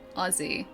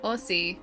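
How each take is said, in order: First: The middle consonant is a buzzed z sound. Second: The middle consonant is a hissed s sound. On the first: The speaker calls it right. "the S becomes a Z" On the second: The speaker calls it wrong. "text-to-speech said Aussie"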